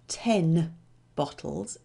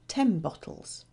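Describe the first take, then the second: First: The word 'ten' ends in a clear n sound. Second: The word 'ten' ends in an m sound before 'bottles'. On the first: This is the careful form a learner expects. "it's not" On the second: This is how it really sounds in connected speech.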